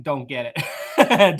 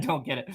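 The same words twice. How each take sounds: First: Slow, drawn-out mock shrug with a laugh; mock dismissive quote. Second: "Don't get it." said softer through a laugh; laughing repeat. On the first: Streamer mocks his own reaction to TikTok in a slow, drawn-out mock brush-off. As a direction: drag out "Don't get it." slowly as a mock brush-off. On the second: Real, not acted. Streamer repeats the phrase to chat, laughing softly.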